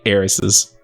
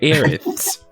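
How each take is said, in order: First: The s sounds are clear hissing sounds. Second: The s sounds are lisped like th. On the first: The speaker calls it right. "versus just saying heiresses. Flows so, so much" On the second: The speaker calls it wrong. "sounds like you have like a terrible lisp"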